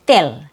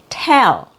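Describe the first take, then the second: First: "till" for tell, Cebuano T between the teeth; lower-pitched Cebuano "till" with an unpopped T; Cebuano accent. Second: "tell" with a popped, released T; true English T. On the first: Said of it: "my native accent". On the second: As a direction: pop the T at the start of "tell". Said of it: "that's how you make a true T sound". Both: Shown as a demonstration.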